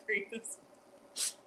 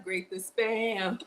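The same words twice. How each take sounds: First: Whispered laughing repeat. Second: Slow announcement. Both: Shown as a demonstration.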